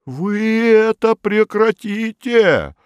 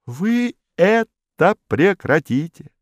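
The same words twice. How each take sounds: First: High, slow stern official; unbending official. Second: Stern official. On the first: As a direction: lay down the law, pompous. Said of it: "непреклонный Модест Матвеевич". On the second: Modest repeats the order. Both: A narrator's reading.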